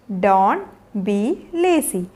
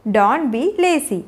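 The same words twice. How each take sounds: First: Slow and low, words separated. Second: Said in the usual way. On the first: Shown as a demonstration. Teacher showing learners what to tell lazy children, word by word. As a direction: pause after "Don't" and after "be". Teacher models phrase slowly, then joined.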